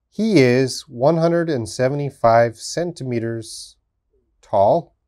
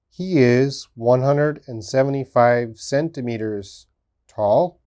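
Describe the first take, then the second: No difference in how they are said.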